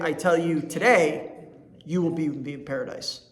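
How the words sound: The pause comes after the word today. The promise is made today and is certain. "I'm telling you today"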